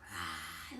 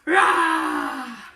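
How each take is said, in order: First: It is said quietly, like a mouse. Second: It is said loudly, like a tiger.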